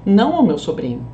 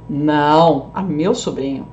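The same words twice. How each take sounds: First: "não ao meu sobrinho" in one flow, falling; one-phrase denial. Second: Low standalone "Não", pause, then "a meu sobrinho"; answer, then correction. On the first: Teacher excluding the nephew, "não ao meu sobrinho" unbroken. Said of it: "pra deixar pra irmã, ó". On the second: Teacher favouring the nephew, low separate "Não". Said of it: "como que eu deixaria pro sobrinho". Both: Shown as a demonstration.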